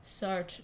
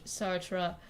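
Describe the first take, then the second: First: Sartre clipped short as sart; a first unsure Sartre; wrong attempt. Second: Sartre with the r-uh ending, sart-ruh; second attempt. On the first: Streamer fumbling a French name. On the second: Streamer correcting her French name. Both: Shown as a demonstration. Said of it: "That's not correct".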